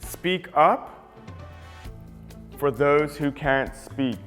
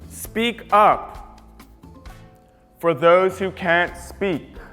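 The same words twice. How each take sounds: First: It is said at a normal volume. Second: It is said in a really loud voice.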